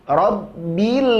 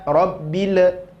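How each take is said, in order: First: The final 'l' flows smoothly without bouncing. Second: The final 'l' bounces with an echoing release. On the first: The speaker calls it right. "Palingkan lagi lidahnya" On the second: The speaker calls it wrong. "Jangan rabbil a, rabbil. Tidak boleh"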